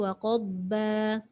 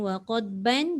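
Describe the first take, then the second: First: The phrase ends on a vowel without n. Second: The phrase ends with an n sound. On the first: The reader stops at this word. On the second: The reading continues without stopping.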